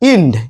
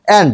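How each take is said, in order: First: The vowel sounds like the 'i' in 'in'. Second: The vowel sounds like the 'a' in 'and'. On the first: The speaker calls it wrong. "আমরা কি প্রায় অনেকে বলে থাকি ইন্ড" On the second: The speaker calls it right. "সঠিক উচ্চারণটা হচ্ছে অ্যান্ড"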